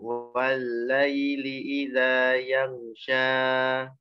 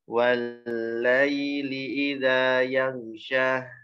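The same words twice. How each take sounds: First: The final vowel is held far too long. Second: The final vowel ends with an audible breathy h. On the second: "ada hak sukun"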